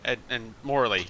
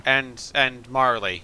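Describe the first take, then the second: First: "Morley" said with an "or" sound, as in more; "Morley" with a rounded "or", said carefully; corrected name. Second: "Marley" said with an "ar" sound, as in car; "Marley" with an open "ar", then self-corrected; wrong name. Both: Real, not acted. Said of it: "Morley, totally".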